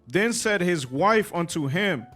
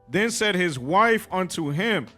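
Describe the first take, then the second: Both takes have the same delivery.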